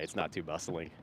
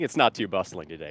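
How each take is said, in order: First: Softer, tempered take; toned-down restatement. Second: Said in the usual way. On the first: Shown as a demonstration. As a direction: take it down a notch. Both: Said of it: "Temper that statement".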